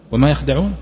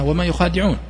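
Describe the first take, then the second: First: يخدعون said without the long a, yakhda'un; short يخدعون, no alif after kh; the reading he calls wrong. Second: يخادعون said with a long a after kh, yukhadi'un; the correct reading. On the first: Teacher quoting the mistaken reading يخدعون without alif. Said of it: "الصحيح أنها وما يخادعون". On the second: Teacher correcting students with يخادعون and a long alif. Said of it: "الصحيح أنها". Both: Shown as a demonstration.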